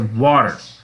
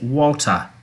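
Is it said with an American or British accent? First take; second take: American; British. First: The t sounds like a soft d. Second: It is said in a British accent.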